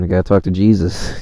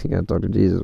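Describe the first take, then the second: First: Said in the usual way. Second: Chuckling at your own joke; laughing repeat. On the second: Real, not acted. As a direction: say it again through a laugh, a bit softer.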